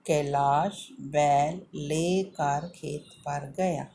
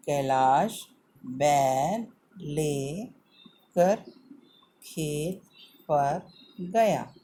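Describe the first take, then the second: First: "Kailash बैल लेकर खेत पर गया" read in one smooth, slow, clear line. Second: "Kailash बैल लेकर खेत पर गया" read very slowly in pieces, each word stretched; slow and broken up. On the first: Teacher to children, reading the sentence whole and clearly. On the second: Teacher to children, reading the sentence in slow pieces. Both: Shown as a demonstration. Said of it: "हमें ध्यान रखना है".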